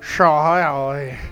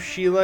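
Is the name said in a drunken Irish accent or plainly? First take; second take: drunken Irish; plain. First: The name is slurred in a drunken Irish accent. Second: The name is said in a plain, ordinary accent.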